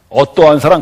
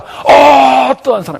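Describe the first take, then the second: First: It is said as a plain questioning phrase. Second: It is said as an admiring exclamation. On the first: It asks what kind of love it is. The speaker calls it wrong. "그런 뜻이 아니라" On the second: It marvels at how great the love is. The speaker calls it right. "이게 감탄사거든요"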